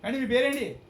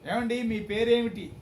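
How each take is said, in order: First: The question is spoken very fast and clipped. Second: The question is spoken at a normal pace. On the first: "అది ఎంత స్పీడ్గా ఉంది" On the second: "మామూలుగా ఒక optimum speed ఇది"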